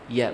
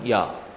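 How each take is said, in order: First: It is light, with lips spread sideways. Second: It is heavy, with the mouth opened wide. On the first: The speaker calls it right. "ditarik kiri maupun kanan" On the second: The speaker calls it wrong. "bukan ya"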